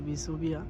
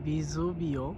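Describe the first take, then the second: First: The name ends in an 'a' sound. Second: The name ends in an 'o' sound. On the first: This is the easier local form. "বাংলাতে ভিসুভিয়া আমরা সহজে কই" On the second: This is the original Italian form. "Italian বলা হয় ভিসুভিও"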